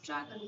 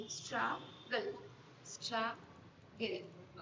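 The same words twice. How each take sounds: First: Said in the usual way. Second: "struggle" drawn out slowly as strug, then gle; syllable division. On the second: Shown as a demonstration. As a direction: break "struggle" into two beats, strug... gle. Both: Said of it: "syllable division করতে হবে".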